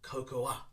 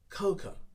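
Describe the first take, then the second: First: The word ends with an added 'ah' sound. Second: The word ends with a plain 'oh' sound. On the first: The speaker calls it wrong. "pronounce it with the A sound at the end" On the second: The speaker calls it right. "We ignore the A sound and simply put cocoa"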